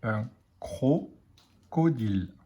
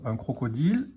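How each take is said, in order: First: Slow, syllables apart; careful dictation pace. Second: Said in the usual way. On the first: Shown as a demonstration. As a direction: dictate "Un crocodile" slowly, cro-co-dile. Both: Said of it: "Il manque la syllabe cro".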